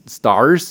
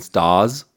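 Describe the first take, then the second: First: The R is clearly pronounced, American style. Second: The R is almost silent, English style.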